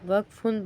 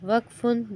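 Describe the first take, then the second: Both takes have the same delivery.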